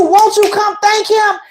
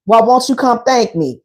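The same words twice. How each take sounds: First: Higher-pitched, insistent restating; emphatic relayed invitation. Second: Lower-pitched man's line; lightly voiced man, pitched down; man's casual invitation. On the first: Retold or imitated. Warning the woman about his real meaning, high and insistent. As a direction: spell out his hint, pitched up. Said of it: "He telling you". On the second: Man asking the woman to thank him, low-pitched invitation. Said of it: "He's like".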